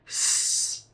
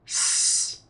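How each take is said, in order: The two takes are said the same way.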